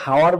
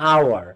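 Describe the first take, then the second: First: The word begins with an h sound. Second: The word begins with a vowel sound. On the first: The speaker calls it wrong. "দেখো অনেকে হাওয়ার বলে না" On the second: The speaker calls it right. "হাওয়ার না কিন্তু আওয়ার"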